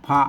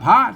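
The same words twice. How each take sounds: First: The word is said with a low tone. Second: The word is said with a rising tone. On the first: "เสียงเอกนะครับ" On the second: "เสียงจัตวานะครับ"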